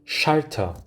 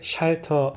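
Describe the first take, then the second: First: The opening sh sound is strong and airy. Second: The opening sh sound is soft and weak. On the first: The speaker calls it right. "더 독일어의 느낌이 납니다" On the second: The speaker calls it wrong. "약하게 샬터 하기보다는"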